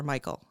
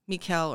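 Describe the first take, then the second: First: "Michael" said MY-kul, stress on the first syllable; English pronunciation. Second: "Michal" said mee-KAL, stress on the second syllable; Hebrew-style pronunciation. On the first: Host offering the other way to say the name, "Michael" as MY-kul. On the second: Host offering one way to say the name, "Michal" as mee-KAL. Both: Shown as a demonstration. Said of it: "however you wanna say it".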